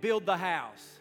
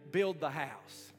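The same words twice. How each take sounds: First: It is said loudly with strong conviction. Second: It is said in a plain, moderate voice. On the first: "Say it again like you mean it" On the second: "Say this with me today"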